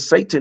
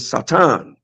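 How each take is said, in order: First: The name is said the common English way. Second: The name is said a different, non-English way. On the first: The speaker calls it wrong. "Satan's name has never been Satan" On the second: The speaker calls it right. "It has always been Satan"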